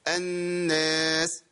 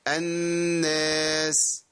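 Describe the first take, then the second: First: The final s sound is cut off abruptly. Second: The final s sound is held for moderate length. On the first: The speaker calls it wrong. "بتقول الناس وتقطع صوت" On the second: The speaker calls it right. "قلنا ايه أن أما كنا نقف على الناس"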